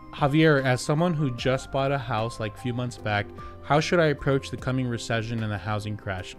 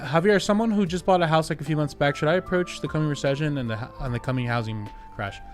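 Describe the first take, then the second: First: It is read slowly and patiently. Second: It is read hurriedly and impatiently.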